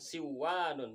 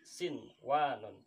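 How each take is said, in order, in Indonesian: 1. Bunyi n melebur ke dalam w. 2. Bunyi n terdengar jelas sebelum w. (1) "jadi bukan siwanun" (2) "tapi sinwanun"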